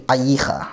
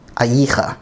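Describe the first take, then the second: The two takes are said the same way.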